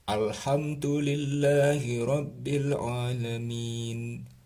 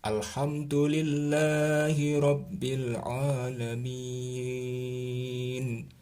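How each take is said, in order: First: The last long vowel is held for two beats. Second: The last long vowel is held for five beats. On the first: "dua ketukan" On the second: "lima ketukan boleh"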